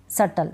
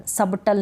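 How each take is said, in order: First: सटल going straight from vowel to T; silent B. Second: सबटल with an audible B before the T; B wrongly sounded. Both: Shown as a demonstration. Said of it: "सबटल नहीं पढ़ेंगे इसको".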